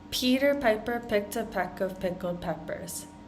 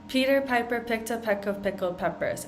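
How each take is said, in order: First: It is said at a moderate pace. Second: It is said at a fast pace.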